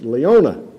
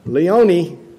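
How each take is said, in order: First: The name ends with an 'uh' vowel. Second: The name ends with a short 'ih' vowel. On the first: This is how locals say it. The speaker calls it right. "what do y'all say? That's Leona. It had an A on it" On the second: This is how visitors say it. The speaker calls it wrong. "they often will say like a short I"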